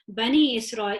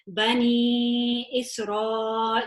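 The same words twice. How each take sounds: First: The vowel is held for a short count. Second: The vowel is held for a long count. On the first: "this would be a normal two" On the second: "we are now stretching it four or five"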